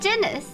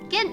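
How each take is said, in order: First: The word starts with a soft J sound. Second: The word starts with a hard G sound. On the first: The speaker calls it wrong. "I was saying it like Guinness" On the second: The speaker calls it right. "but it's like Guinness"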